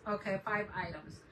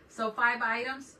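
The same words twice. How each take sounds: First: Said in the usual way. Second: Five items asked with a rising, drawn-out question; slow, louder "five items?" checking with chat. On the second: Shown as a demonstration. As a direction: ask it slowly like a question.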